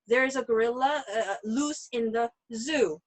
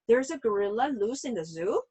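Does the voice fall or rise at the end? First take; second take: fall; rise. First: The pitch falls at the end. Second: The pitch rises at the end. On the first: It is a statement. "밑으로 내려가는 인토네이션인데" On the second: It is a question. "Intonation goes up"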